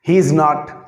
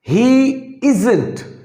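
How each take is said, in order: First: 'Is not' is said as two full words. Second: 'Is not' is contracted into one short word. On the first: The speaker calls it wrong. "इज नॉट को कभी भी use नहीं करते।" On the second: The speaker calls it right. "जहां short term use करते हैं"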